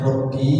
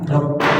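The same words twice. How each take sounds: First: The final vowel is drawn out long. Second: The final vowel is kept short. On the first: It states 'my Lord' rather than calling out. The speaker calls it wrong. "Perhatikan Robbinya jangan panjang, bukan Robbi" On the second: It calls out 'O Lord'. The speaker calls it right. "tapi Robbi"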